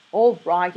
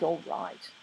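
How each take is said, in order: First: Louder, sharp stress on "All"; snapping. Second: Softer, stress on "all", clipped off; muttered snap. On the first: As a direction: cut the angel off with a snap. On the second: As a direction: let it drop into an irritated grumble. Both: A narrator's reading. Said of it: "Crowley snapped".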